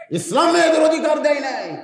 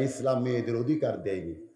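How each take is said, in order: First: High, loud mimicked protest; loud mock outcry. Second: Lower, softer quote of the critics; low-key quote. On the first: Preacher mimicking critics of Islam, loud high outcry. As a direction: throw the accusation out as a raised cry. Repeats critics' claim as a cry. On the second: Retold or imitated. Preacher quoting critics of Islam, low and subdued. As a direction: report their claim low and subdued.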